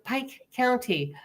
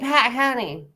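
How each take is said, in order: First: Pike has a full gliding 'eye' vowel. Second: Pike has a flattened 'ah' vowel. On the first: The visitor's own pronunciation. "And I said" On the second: The locals' pronunciation. "you mean Pat County?"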